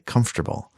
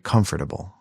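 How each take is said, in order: First: The middle is squeezed into 'comf-ter-ble'. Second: Every syllable is said, including 'fort'. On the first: This is how most people say it. "people say" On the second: This is how the word is spelled. "it's actually"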